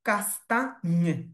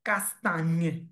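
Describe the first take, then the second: Both takes have the same delivery.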